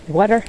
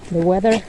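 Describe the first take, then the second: First: "weather" said like "wotter", vowel as in water; "the weather" with the first vowel of water, no "th"; slip into water. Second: "the weather" fixed, short e and a clear th; corrected weather. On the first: Real, not acted. A fumbled slip while walking in the snow, "weather" comes out as water. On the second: Shown as a demonstration. Correcting her own slip to the viewers, clear weather. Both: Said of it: "I said water".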